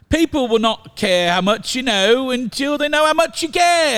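It is said in a British accent.

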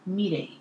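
The name is said with Japanese pronunciation. "if you want to really get technical with my Japanese pronunciation"

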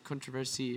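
It is said in a British accent.

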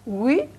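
The pitch rises across the word.

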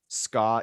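It is said with an American pronunciation.

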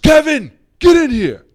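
It is said in an angry, scolding tone. The listener is in trouble.

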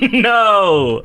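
It is said with enthusiasm and positivity.

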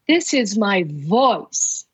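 The word 'voice' carries the stress.

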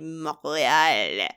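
It is said with a French Canadian pronunciation. "in which it would be Montreal, which is pretentious"

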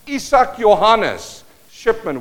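The name is pronounced the Afrikaans way.

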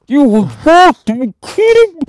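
It is said muffled, as through a regulator.

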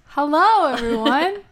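It is said in an excited tone.

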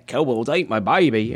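It is said in a put-on Australian accent.

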